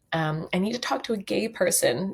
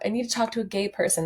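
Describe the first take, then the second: First: Said in the usual way. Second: Quick, higher quoted TikTok line; quick lightly voiced TikTok quote; quoting a TikTok. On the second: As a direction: rattle it off like the TikTok. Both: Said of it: "Does anyone know that TikTok?".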